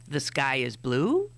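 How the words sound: The voice rises at the end.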